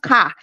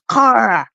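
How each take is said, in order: First: It is said with a Nigerian English accent. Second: It is said with a Canadian English accent. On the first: "it's not car" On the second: "they always correct me with the Canadian accent"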